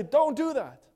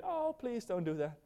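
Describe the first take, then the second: First: Sharp, high, loud command; upset parent. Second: Soft, higher-pitched gentle plea; mild plea. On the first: Parent pulling child's hand from the fire, upset command. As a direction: order the child to stop, loudly. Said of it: "You get upset". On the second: Preacher acting a too-gentle parent to a child, mild plea. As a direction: plead softly, far too mildly to stop anyone. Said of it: "what do you do? Do you get". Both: Acted.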